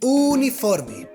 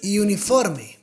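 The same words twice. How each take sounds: First: The first vowel is a plain 'oo' sound. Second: The first vowel sounds like English 'you'. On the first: The speaker calls it right. "But it's just U, not U. It's" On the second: The speaker calls it wrong. "Don't pronounce as the U in English, because some people say"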